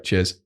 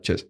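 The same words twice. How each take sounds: First: Said in the usual way. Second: "Cheers" in one quick burst; said fast. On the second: Shown as a demonstration. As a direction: rattle off a very short "Cheers". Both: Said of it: "Especially when you say it fast".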